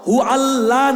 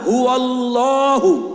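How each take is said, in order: First: The word ends without a final u vowel. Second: The word ends with a final u vowel. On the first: The speaker calls it wrong. "হু আল্লাহ না" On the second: The speaker calls it right. "হু আল্লাহু আহাদ"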